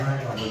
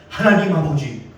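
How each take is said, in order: First: It is said in an ordinary, plain praying voice. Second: It is said in a loud, dramatic preacher voice. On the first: This is how people usually pray. "우리 같으면 이렇게 기도하잖아요" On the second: The speaker imitated an admired preacher to look impressive. "그분의 어투, 말투 그걸 다 흉내냈어요"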